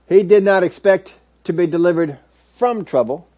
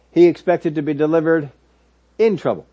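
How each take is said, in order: First: Leaning on "from" in "delivered from trouble"; stress on from. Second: "in" of "in trouble" said with weight and a falling close; stress on in. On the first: Preacher correcting his congregation, stressing "from". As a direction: mark the wrong idea, "from trouble", as a contrast. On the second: Preacher to congregation, pressing the word "in". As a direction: land the right word, "in". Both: Shown as a demonstration.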